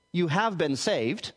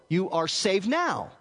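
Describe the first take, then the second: First: Slow, deliberate weight on "have been saved"; stress on "have". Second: Slow quote landing firmly on "now"; stress on "now". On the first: Teacher showing the past side of the tense, slow stress on "have". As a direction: draw out "have" to point to the past. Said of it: "in the past, hence this". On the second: Teacher showing why translators chose the present, slow stress on "now". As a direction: draw it out and punch "now". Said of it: "emphasizing the ongoing or present aspect". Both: Shown as a demonstration.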